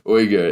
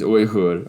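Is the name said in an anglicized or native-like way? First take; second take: anglicized; native-like. First: The name is said in a simplified English way. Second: The name is said in a native-like way. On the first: "if you want to keep it a little simpler for your Western mouth" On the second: "The proper pronunciation is Uyghur"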